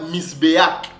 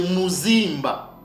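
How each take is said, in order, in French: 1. Il commence par 'mis' et se termine par 'beak'. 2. Il commence par 'mu' et se termine par 'zimba'. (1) "ce mot-là ne se prononçait pas Misbeak" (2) "Non, c'est Muzimba"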